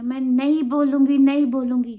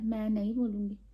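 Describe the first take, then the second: First: Louder, stubborn no; defiant shout. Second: Softer, stubborn no; sulky refusal. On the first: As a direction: yell the refusal. (ज़ोर से ज़िद्दी इनकार) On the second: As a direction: refuse quietly, dig in. (धीमे से ज़िद्दी इनकार) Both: Retold or imitated. Child refusing mom.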